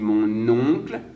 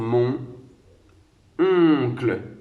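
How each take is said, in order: First: The n links smoothly into the next word. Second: The two words are said slowly and apart. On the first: "quand je fais la liaison" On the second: "quand je vais parler doucement"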